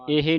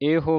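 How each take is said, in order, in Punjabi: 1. ਸ਼ਬਦ ਦਾ ਅੰਤ ਓ ਸਵਰ ਨਾਲ ਨਹੀਂ ਹੁੰਦਾ। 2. ਸ਼ਬਦ ਦਾ ਅੰਤ ਓ ਸਵਰ ਨਾਲ ਹੁੰਦਾ ਹੈ। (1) "ਇਹ ਨਹੀਂ ਕਹਿ ਦੇਣਾ" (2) "ਈੜੀ ਨੂੰ ਸਿਆਰੀ ਤੇ ਹਾਹੇ ਨੂੰ ਔਂਕੜ ਲੱਗਾ ਹੈ"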